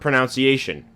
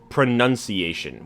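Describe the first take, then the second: First: The second syllable sounds like 'noun'. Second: The second syllable sounds like 'nun'. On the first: The speaker calls it wrong. "is not pronunciation" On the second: The speaker calls it right. "it's pronunciation"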